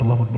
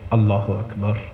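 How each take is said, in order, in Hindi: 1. यह बिना ध्यान के, यंत्रवत कहा गया है। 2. यह ध्यान से कहा गया है, जैसे किसी से बात कर रहे हों। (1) "ऐसे नहीं" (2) "पूरी तवज्जो से, ऐसे जैसे किसी से बात कर रहा हूं"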